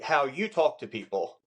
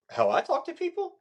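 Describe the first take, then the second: First: Said in the usual way. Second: Questioning echo, pitched very high; "I" punched high as a questioning prompt; stress on I as correction. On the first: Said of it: "You just said". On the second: Shown as a demonstration. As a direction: correct them with a high, rising "How I talk to people?". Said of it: "or I would go".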